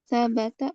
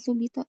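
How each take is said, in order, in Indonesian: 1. Kata ini diucapkan dengan vokal 'a' di seluruh kata. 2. Kata ini diucapkan dengan vokal 'u' lalu 'i'. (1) "sabata bukan subita" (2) "bukan subita"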